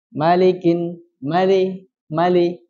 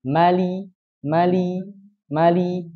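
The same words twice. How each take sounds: First: Mali said with the li turning into le; blurred li. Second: Mali with a crisp, pure i on li; clear li. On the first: Teacher showing the blurred, wrong li sound. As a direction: let the li slide toward le in mali. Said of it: "Jadi harus jelas li ya". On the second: Teacher modelling the correct, crisp li in mali. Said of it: "Jadi harus sangat jelas linya". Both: Shown as a demonstration.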